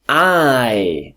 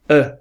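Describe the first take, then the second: First: The word has a full, strong vowel. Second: The word has a weak schwa vowel. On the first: "we have I" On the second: "the weak form is uh"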